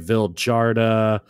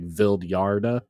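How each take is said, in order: First: The j is pronounced like an English j. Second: The j is pronounced like a y sound. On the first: "I hear people say Vildhjarta" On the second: "the J there makes me feel like it's pronounced like Vildhjarta"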